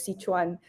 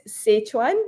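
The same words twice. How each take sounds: First: "Sichuan" said "SEE-chwan", with an ee; local pronunciation. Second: "Sichuan" said "SETCH-wan", with an e; American pronunciation. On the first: Cook showing the local way to say "Sichuan", as "SEE-chwan". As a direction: say "Sichuan" with "see" as first syllable. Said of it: "over here we pronounce it as". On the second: Cook showing how Americans say "Sichuan", as "SETCH-wan". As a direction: say "Sichuan" with "setch" as first syllable. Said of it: "Americans pres-, pronounce it as". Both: Shown as a demonstration.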